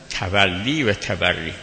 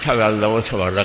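First: The first word ends with an "ee" vowel. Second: The first word ends with an "ah" vowel. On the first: The speaker calls it right. "تولی و تبری، باب تفعل" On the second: The speaker calls it wrong. "بعضی میگن تولا و تبری، غلطه"

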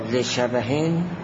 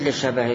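First: The word ends with a final n sound. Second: The word ends without a final n sound. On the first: The word stands alone and is not joined to the next. The speaker calls it right. "حتما تنوین بدید" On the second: The word is joined to the next word as a possessive. The speaker calls it wrong. "اضافه نخونید، نگید لشبه غیره ها"

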